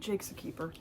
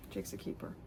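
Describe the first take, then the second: First: Said in the usual way. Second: Unvoiced whispered aside, much softer and lower; voiceless whisper repeat. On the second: Shown as a demonstration. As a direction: breathe it like a secret.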